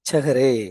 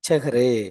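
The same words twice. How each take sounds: No difference in how they are said.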